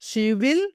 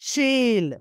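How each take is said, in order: First: Both words are said fully and separately. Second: The words are joined into one short syllable.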